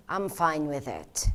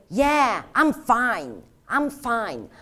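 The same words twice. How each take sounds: First: Low, soft and calm; subdued acceptance. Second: Insistent fine. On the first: Trainer showing inflection with a fine reply, low and subdued. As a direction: say it quietly, settled and accepting. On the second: Trainer showing how inflection changes meaning, insistent and raised. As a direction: punch out each fine as if brushing off concern. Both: Shown as a demonstration. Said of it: "There's a huge difference when you say".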